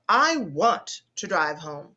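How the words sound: The stress falls on the word want. The speaker is insisting on going.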